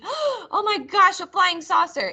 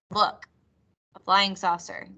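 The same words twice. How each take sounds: First: Amazed excitement. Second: Said in the usual way. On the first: Shown as a demonstration. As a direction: sound truly amazed by a UFO. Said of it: "It would not be". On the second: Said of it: "It would just be".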